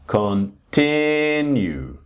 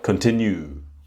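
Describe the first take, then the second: First: The stress is on the second syllable. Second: The stress is not on the second syllable. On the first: The speaker calls it right. "The second syllable is a strong one" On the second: The speaker calls it wrong. "and not continue"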